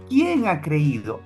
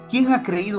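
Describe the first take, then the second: First: It is asked in a doubtful, skeptical tone. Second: It is read as a plain, neutral question. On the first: Nobody really believes he is the Messiah. "Yo quiero darle una entonación diferente" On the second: It simply asks who has believed. "Dice así el texto"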